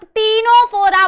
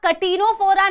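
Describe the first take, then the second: First: "टीनोफोरा" starting on a long tee; "टीनोफोरा", silent C, t first; correct pronunciation. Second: "कटिनोफोरा" with an extra ka in front; wrong pronunciation. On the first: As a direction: drop the k and say "टीनोफोरा" firmly. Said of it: "इसे आप टीनोफोरा बोलेंगे". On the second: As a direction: sound the k before t in "कटिनोफोरा". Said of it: "इसे आप कटिनोफोरा नहीं बोलेंगे". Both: Shown as a demonstration.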